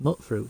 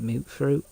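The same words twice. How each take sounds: First: The first syllable has a short vowel, like mutt. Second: The first syllable has a long vowel, like mute. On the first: This is how the speaker chooses to say it. "so it's just mutfruit to me" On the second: This is how characters in the game say it. "there's characters in the game that pronounce it mutfruit"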